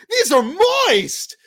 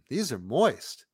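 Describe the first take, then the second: First: It is said excitedly at a loud volume. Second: It is said calmly at a moderate volume. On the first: Calling out to a stranger across the street. "say it as if you're so excited. You're yelling to the guy across the street" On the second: Talking to someone sitting right beside you. "she's sitting right next to you, so not as excited. But you're happy"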